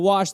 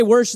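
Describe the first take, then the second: First: Said in the usual way. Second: Worsh with an r, wər-sh; worsh, r before the sh. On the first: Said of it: "instead of". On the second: Shown as a demonstration. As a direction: put an r into worsh. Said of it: "people who do say".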